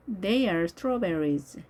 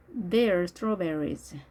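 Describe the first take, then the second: First: THEY ARE as two separate words; careful model reading with a distinct "are"; full form. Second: "They are" merged into one syllable, like they're; slow model reading, contracted "They are"; contracted form. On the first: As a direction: say "They are" uncontracted, slowly. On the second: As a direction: run "They are" together as "there". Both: Shown as a demonstration.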